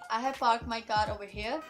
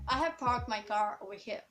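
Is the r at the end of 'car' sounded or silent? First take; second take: silent; sounded. First: The r at the end of car is silent. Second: The r at the end of car is sounded. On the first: The speaker calls it wrong. "instead of saying" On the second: The speaker calls it right. "in American accent in that way"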